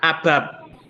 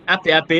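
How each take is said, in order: First: The letters are run together as one word. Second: Each letter is named separately. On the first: The speaker calls it wrong. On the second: The speaker calls it right.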